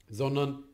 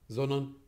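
The two takes are said the same way.

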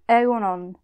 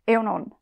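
First: The word is said at a normal pace. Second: The word is said very fast.

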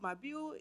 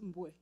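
First: The name is split into more than one syllable. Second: The name is said as a single syllable. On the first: The speaker calls it wrong. "people mispronounce my last name a lot" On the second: The speaker calls it right. "it's just Mbue. It's one syllable"

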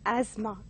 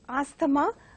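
First: No 'th' sound is heard in the middle of the word. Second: A 'th' sound is heard in the middle of the word. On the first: The speaker calls it right. "but has to be pronounced as asthma" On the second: The speaker calls it wrong. "pronounced as asthma by many people"

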